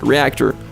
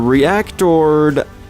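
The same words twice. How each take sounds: First: The word is pronounced in an ordinary, plain way. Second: The word is pronounced in an affected, fancy way. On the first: "I actually pronounce it reactor most of the time" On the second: "I just wanted to be fancy that one time"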